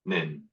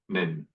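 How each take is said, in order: First: The words shrink to a single short syllable. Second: The words shrink to a single short syllable.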